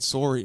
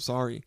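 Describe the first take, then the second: First: It is said with a Canadian accent. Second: It is said with a standard American accent.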